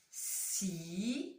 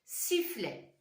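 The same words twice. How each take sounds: First: "Sifflet" as a long rising "si", a pause, then "fflet"; two-syllable reading. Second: Said in the usual way. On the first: Shown as a demonstration. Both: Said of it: "Deux syllabes".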